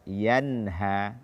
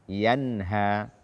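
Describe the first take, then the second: No difference in how they are said.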